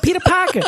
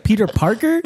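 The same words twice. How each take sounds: First: Much higher, insistent New York "Peter Parker"; New York accent. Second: Said in the usual way. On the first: Retold or imitated. Wife correcting husband, high insistent New York accent. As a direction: say "Peter Parker" with dropped R's like a New Yorker. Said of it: "She's like". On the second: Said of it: "And he's like".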